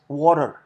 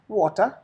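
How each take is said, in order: First: It is said in an American accent. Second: It is said in an Indian accent. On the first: "as Americans do" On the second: "Just an Indian way of saying is water is enough"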